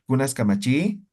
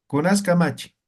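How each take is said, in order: First: "Kamachi" drawn up into a rising question; questioning intonation. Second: "Kunas" leads, "Kamachi" falls away; firm statement tune, "Kamachi" dropping at the end; unintoned question. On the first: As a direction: raise the pitch at the end of "Kamachi". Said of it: "No hacen". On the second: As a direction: ask it dryly with no rise on "Kamachi". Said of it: "No entonamos en aymara". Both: Shown as a demonstration.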